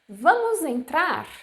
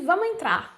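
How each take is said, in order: First: The first word keeps its final s sound. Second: The first word drops its final s sound. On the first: It sounds formal, like written language. The speaker calls it wrong. "that's too formal. It's like a book speaking" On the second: It sounds natural and everyday. The speaker calls it right. "we actually say vamos entrar"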